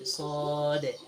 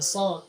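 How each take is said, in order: First: It is fuller, with a deep sound from the chest. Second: It is short and light, without chest resonance. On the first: The speaker calls it right. "tapi sode. Sode kasih bunyi dadanya" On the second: The speaker calls it wrong. "bukan so"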